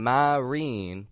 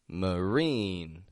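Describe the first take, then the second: First: The first vowel is a full vowel. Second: The first vowel is a reduced schwa. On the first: The speaker calls it wrong. "Notice I'm not saying marine" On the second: The speaker calls it right. "but m"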